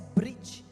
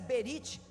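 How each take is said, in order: First: The b and r sounds join without a vowel. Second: A vowel separates the b and r sounds. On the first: The speaker calls it right. "eu prefiro a pronúncia brit" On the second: The speaker calls it wrong. "Alguém pronuncia berit, mas eu não gosto dessa pronúncia"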